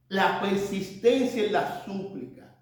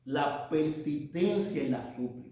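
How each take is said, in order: First: "La persistencia en la súplica" repeated slowly, each word weighed; slow emphasis. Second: Said in the usual way. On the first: Shown as a demonstration. Preacher repeats his second point to the congregation, slow and emphatic. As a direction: lean on "persistencia" and let it sink in. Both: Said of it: "nuestro segundo punto".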